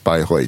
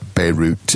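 First: The name is said with a German pronunciation. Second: The name is said with an English pronunciation. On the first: "but it's Bayreuth in German" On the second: "Normally pronounced like Beirut in English"

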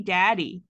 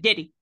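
First: The first vowel sounds like 'a' in cat. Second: The first vowel sounds like 'i' in did. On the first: This is the usual pronunciation elsewhere. "They didn't say daddy" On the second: This is how people in that northern Georgia area say it. "They said diddy"

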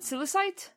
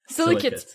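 First: The last syllable sounds like 'site'. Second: The last syllable sounds like 'kate'. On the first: The speaker calls it wrong. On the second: The speaker calls it right.

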